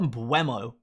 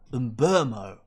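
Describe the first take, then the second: First: The middle has a 'w' glide sound. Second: The middle has a plain 'uh' vowel. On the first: The speaker calls it wrong. "There's no we" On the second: The speaker calls it right. "It's an uh sound"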